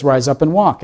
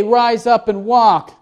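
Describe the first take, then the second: First: Said in the usual way. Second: High, slow, authoritative command; commanding Jesus. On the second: Acted. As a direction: pronounce it like a proof of power. Jesus voiced giving the command.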